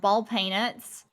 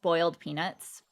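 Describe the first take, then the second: First: The first word has an 'all' vowel sound. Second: The first word has an 'oil' vowel sound. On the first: "some people in the South say all instead of oil" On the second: "which is really just boiled peanuts"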